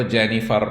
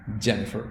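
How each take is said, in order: First: جینیفر with a full, clear -far ending; جینیفر spelled out the local way, every letter sounded; typical Pakistani reading. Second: جینیفر with a soft, fading r at the end; جینیفر the American way, the ending dropped to "-fuh"; correct American name. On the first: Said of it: "typical Pakistani پہلی دفعہ کہے گا". (جینیفر کو عام پاکستانی انداز میں پورا "فر" کھینچ کر بولنا) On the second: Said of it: "ایسا نہیں ہے، جینیفر". (جینیفر کو امریکی انداز میں آخری "ر" ہلکا کر کے بولنا) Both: Shown as a demonstration.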